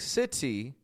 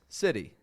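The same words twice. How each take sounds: First: The t is a full, crisp t sound. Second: The t is a quick flap like a light r.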